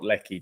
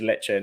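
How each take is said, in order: First: The middle consonant is a k sound. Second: The middle consonant is a ch sound. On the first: The speaker calls it wrong. "not Lecky" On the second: The speaker calls it right. "Lecce is Lecce"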